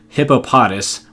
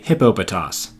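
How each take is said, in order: First: Syllable stress is patterned like hippopotamus. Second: Syllable stress is patterned unlike hippopotamus. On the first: The speaker calls it wrong. "sounds a little too much like hippopotamus" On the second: The speaker calls it right. "it was actually hippopotas"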